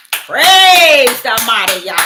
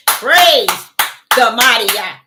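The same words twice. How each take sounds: First: Drawn-out joyful praise, louder; slow, booming praise shout. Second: Said in the usual way. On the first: Retold or imitated. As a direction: proclaim it slowly and loudly. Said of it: "Guess what I said?". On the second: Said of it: "That's what I'm talking about".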